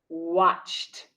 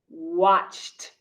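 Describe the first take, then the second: First: The word is said as one syllable. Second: The word is said as one syllable.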